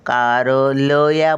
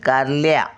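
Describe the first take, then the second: First: The l and y are said as separate syllables. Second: The l and y are joined into one cluster. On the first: The speaker calls it wrong. "कारलया बोलतो का? नाही" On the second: The speaker calls it right. "ल आणि या जोडून बोलतो बघा"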